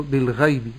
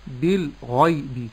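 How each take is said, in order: First: "بالغيب" with a light, thin gh; thin out the ghayn in "بالغيب"; wrong thin ghayn. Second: Slow "بالغيب" with a full, thick gh; correct heavy ghayn. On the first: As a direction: demonstrate faulty unemphatic ghayn in "بالغيب". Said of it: "وأفخم الغين". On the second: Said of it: "تفخيم الغين". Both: Shown as a demonstration.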